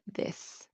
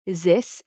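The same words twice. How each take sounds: First: The word begins with an English th sound. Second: The word begins with a z-like sound. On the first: This is the native English sound. The speaker calls it right. "instead of" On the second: This is how French speakers say it. The speaker calls it wrong.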